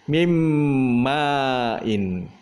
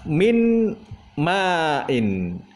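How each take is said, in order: First: The n sound merges into the following m. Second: The n sound is clearly pronounced before m. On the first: "kita idghamkan, dimasukkan ke dalam huruf mim"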